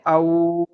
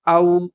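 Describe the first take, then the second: First: The vowel is drawn out long. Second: The vowel is short, soft and quick. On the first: The speaker calls it wrong. "इसे औ ऐसे नहीं पढ़ना" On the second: The speaker calls it right. "नर्म आवाज़ से जल्दी अदा करते हैं"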